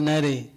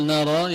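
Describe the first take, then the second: First: نري with the long a bent to e, nere; imala. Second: نرى with a plain open long a. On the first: Teacher shows the Susi reading, vowel leaning to e. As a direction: bend the a of نري toward e. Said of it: "يقول نري". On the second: Teacher shows the standard reading, open vowel. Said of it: "بدل أن يقول نرى". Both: Shown as a demonstration.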